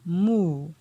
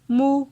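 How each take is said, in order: First: The syllable is said on a falling tone. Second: The syllable is said on a mid tone. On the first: "pour le ton descendant" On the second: "ton moyen"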